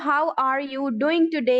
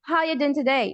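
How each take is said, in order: First: The word 'are' is clearly pronounced. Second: The word 'are' is completely dropped. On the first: "ये जो लिखा हुआ है" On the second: "वो आर को बिल्कुल कंप्लीटली साइलेंट कर देते हैं"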